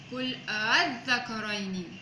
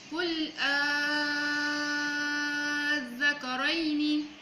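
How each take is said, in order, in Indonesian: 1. Hamzah kedua dilunakkan dan ditahan sebentar. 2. Hamzah kedua berubah menjadi vokal panjang. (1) "untuk tashil dua harakat, iaitu mentahqiqkan hamzah pertama dan mentashilkan hamzah kedua" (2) "Contoh bacaan Al-Zakarain untuk ibdal"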